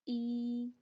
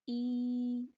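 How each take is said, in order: No difference in how they are said.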